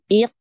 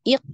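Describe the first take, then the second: First: The syllable is stretched out long. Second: The syllable has a pause inside it. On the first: "nah ini dipanjang-panjangkan" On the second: "ini dijeda ya, tidak boleh"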